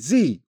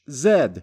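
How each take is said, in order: First: The letter is said the American way, zee. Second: The letter is said the British way, zed.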